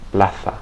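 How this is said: The z sounds like th. This is how it is said in Spain. "as if I were in Spain"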